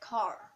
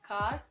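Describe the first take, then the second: First: The r at the end is sounded. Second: The r at the end is silent. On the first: The speaker calls it right. "the end of this word they will produce a kind of sound like "r."" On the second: The speaker calls it wrong. "they would never say like the word"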